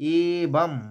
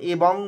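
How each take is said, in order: First: The word ends with an 'm' sound. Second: The word ends with an 'ng' sound. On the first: The speaker calls it right. "এখানে অনস্বরটা ময়ের উচ্চারণ" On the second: The speaker calls it wrong. "এ বং বলবো না"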